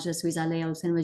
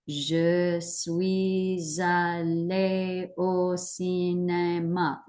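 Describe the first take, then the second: First: It is said very fast, rushed. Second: It is said slowly, piece by piece.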